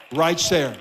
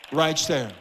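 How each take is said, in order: Both takes have the same delivery.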